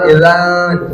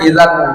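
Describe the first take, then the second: First: The n sound is hidden and nasalized. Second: The n sound is pronounced clearly. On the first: The speaker calls it right. "Samar itu artinya tidak dibaca jelas nunnya" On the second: The speaker calls it wrong. "tidak dibaca idzan"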